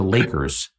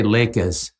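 First: "Lakers" with a clearly sounded r; careful, r-ful "Lakers", lower and quieter; corrected pronunciation. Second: "Lakers" ending in "uhs", Jersey City style; r-less Jersey City "Lakers"; Jersey City accent. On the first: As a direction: say "Lakers" with a full "-ers" ending. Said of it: "It's the Lakers". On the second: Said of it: "You can't say Lakers". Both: Retold or imitated.

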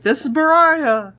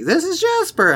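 First: High exaggerated self-introduction; acting out herself. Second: High-pitched mock introduction; imitating a friend. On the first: Recalling her own montage line, high self-mimicry. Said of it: "I'm like". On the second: Recalling her in the recorded montage, high mimicry. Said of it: "her being like".

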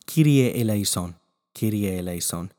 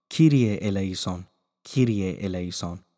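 The two takes are said the same way.

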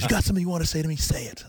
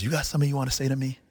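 First: High-pitched mock challenge; pressing, pitched-up retold dare; insistent needling. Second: Quick, higher-pitched retold challenge; quick mock confrontation; needling challenge. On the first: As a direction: imitate a coach pushing harder for an answer. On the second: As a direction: imitate a coach picking at someone. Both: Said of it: "he's just needling me".

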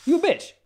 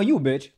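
First: "You a bitch" much higher with a rising end; high teasing repeat. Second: Said in the usual way. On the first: Real, not acted. Guest repeating the insult about support-dog owners, high rising tease.

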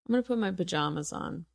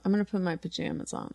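First: "pajamas" as puh-JAH-muz, murmured quickly; JAH pronunciation. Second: "pajamas" as puh-JAM-uz, murmured quickly; JAM pronunciation. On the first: Guest testing herself under her breath, "pajamas" as puh-JAH-muz. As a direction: try "pajamas" with the a of father, softly. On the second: Guest testing herself under her breath, "pajamas" as puh-JAM-uz. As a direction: try "pajamas" with the a of jam, softly. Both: Shown as a demonstration. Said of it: "I think I say pajamas".

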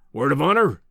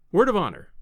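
First: Demanding professor. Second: Higher, lighter earnest pledge; earnest visitor. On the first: Professor testing the visitor's promise, firmly demanding. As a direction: press for a solemn pledge. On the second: Visitor promising secrecy to the professor, earnest. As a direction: answer with an eager, sincere pledge. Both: Acted.

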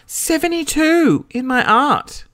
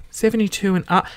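First: High, slow, drawn-out protest; outraged disbelief. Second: Said in the usual way. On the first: Real, not acted. Reader offended by their favourite subject's mark, high outraged disbelief. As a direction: repeat it aghast, pitched way up.

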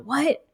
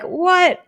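First: Short rising "What?"; puzzled what. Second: High, loud falling "What?"; stunned reaction, high up; shocked what. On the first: Hearing twenty years of silence, a puzzled rising "What?". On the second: Hearing parents visit Bali, a high shocked falling "What?". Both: Retold or imitated. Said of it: "I'm like".

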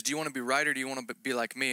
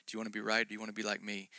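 First: Said in the usual way. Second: Gentle inner whisper. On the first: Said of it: "And he says". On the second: Retold or imitated. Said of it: "It was a whisper in my heart".

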